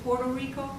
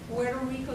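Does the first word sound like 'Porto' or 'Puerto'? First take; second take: Porto; Puerto. First: The first word is said as 'Porto'. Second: The first word is said as 'Puerto'. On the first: This is how Americans say the name. "they say Puerto Rico, so they spell it like that" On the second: This is not how Americans say the name. "they don't say Puerto Rico"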